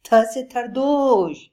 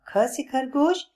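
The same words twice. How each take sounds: First: Slow, higher, louder gleeful lisp on "थ से थरदोश"; joyfully mangle the word; happy lisping repeat. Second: Higher, clear teacher voice; teaching. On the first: Acted. Lion happily repeats the letter, lisping it. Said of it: "शेर खुश होते हुए बोला". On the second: Shown as a demonstration. Bablu teaches the next letter, higher. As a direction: announce the next letter brightly. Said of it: "teaching next letter".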